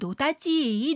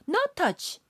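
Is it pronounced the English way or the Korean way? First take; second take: Korean; English. First: It is pronounced as Korean syllables: no-da-ji. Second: It is pronounced as English words: no touch. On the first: "영어 발음에 익숙지 않은 우리 조상님들" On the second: "영어 발음"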